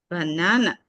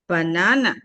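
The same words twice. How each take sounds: The two takes are said the same way.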